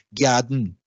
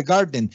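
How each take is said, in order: First: GARDEN as 'gyah-dn'; Creole palatalization. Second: GARDEN with a plain hard 'ga'; English pronunciation. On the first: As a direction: say GARDEN with 'gy', no 'r'. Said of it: "en criol tienen una palatalización". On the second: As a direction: say GARDEN as 'gar-den'. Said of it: "en lugar de garden". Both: Shown as a demonstration.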